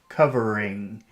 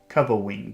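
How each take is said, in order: First: The R sound is full and clear. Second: The R sound is weak and childlike. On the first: The speaker calls it right. "they're pushing down when they should be pushing out" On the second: The speaker calls it wrong. "a little child would pronounce this covering"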